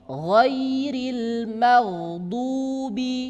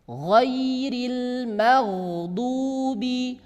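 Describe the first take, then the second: First: The consonant is a soft throaty gh sound. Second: The same.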